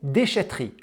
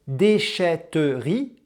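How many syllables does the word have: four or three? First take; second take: three; four. First: The word is said with three syllables. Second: The word is said with four syllables. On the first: "trois syllabes" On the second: "quatre syllabes"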